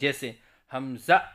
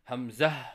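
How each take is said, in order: First: The word ends with a glottal stop. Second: The word ends with an h sound. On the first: The speaker calls it wrong. "आखिर की हा को हमज़ा से बदल कर पढ़ते" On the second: The speaker calls it right. "सही अदायगी है"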